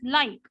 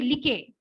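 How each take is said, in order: First: The vowel glides from ah to ee. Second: The vowel is a plain single sound. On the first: The speaker calls it right. "we say it as like" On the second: The speaker calls it wrong. "You don't say like"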